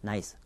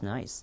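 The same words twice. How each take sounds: First: The word is said flatly, without feeling. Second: The word is said with lively, emotional pitch. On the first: The speaker calls it wrong. "nice 그렇게 말하는 말 미국 사람 없습니다" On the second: The speaker calls it right. "감정까지 얹는"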